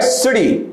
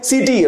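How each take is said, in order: First: Short "i", light flapped t in सिटी; careful English pronunciation. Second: सिटी with long "ee" in both syllables, see-tee; common mispronunciation. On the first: Shown as a demonstration. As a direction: say सिटी as a quick sih-dee. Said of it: "और अच्छे से pronounce करेंगे सिटी". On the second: Retold or imitated. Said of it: "बहुत सारे लोग इसे पहले pronounce करते हैं".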